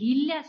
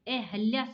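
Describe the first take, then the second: First: The second syllable has an 'i' vowel. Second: The second syllable has an 'a' vowel. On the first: The speaker calls it wrong. "अहिल्या शब्द नहीं होता है" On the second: The speaker calls it right. "अहल्या शब्द होता है"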